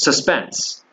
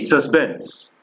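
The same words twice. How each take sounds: First: The middle consonant is a p sound. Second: The middle consonant is a b sound.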